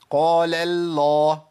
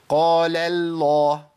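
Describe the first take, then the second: No difference in how they are said.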